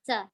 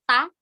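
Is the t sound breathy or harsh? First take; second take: breathy; harsh. First: The t is soft with a puff of breath. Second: The t is hard and harsh without breath. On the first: The speaker calls it right. "tapi ta. Ada sedikit nafas yang keluar" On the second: The speaker calls it wrong. "bukan ta"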